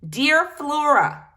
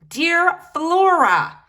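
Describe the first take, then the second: First: It is said at normal volume, not insistent. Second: It is said louder and more insistently.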